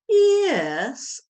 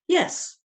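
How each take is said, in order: First: It sounds hesitant and only half convinced. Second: It sounds like plain, willing agreement. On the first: The speaker only partly agrees. "I'm not one hundred percent in agreement" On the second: The speaker fully agrees. "I agree"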